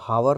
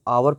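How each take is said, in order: First: The word begins with an h sound. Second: The word begins with a vowel, no h. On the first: The speaker calls it wrong. "इसको हम हावर नहीं पढ़ते हैं" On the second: The speaker calls it right. "इसको हम आवर पढ़ते हैं"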